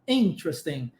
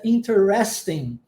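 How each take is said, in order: First: The stress is on the first syllable. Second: The stress is not on the first syllable. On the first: "interesting, lá no início" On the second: "Existe uma outra variação que é a pronúncia interesting"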